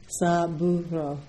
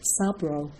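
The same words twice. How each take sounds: First: The vowel after the b is pronounced. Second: The vowel after the b is dropped. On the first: The speaker calls it right. "there was a U in there" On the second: The speaker calls it wrong. "for a long time she would say Saburo"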